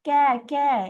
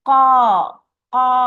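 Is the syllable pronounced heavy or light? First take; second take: light; heavy. First: The syllable sounds light and thin. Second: The syllable sounds heavy and full. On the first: The speaker calls it wrong. "இந்த மாதிரி சொல்லக்கூடாது" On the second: The speaker calls it right. "சத்தம் மேல் நோக்கி தான் போகணும்"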